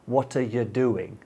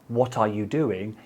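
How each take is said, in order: First: The words are run together and partly reduced. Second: Every word is pronounced fully and separately. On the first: "You say what sounds like" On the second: "You don't say"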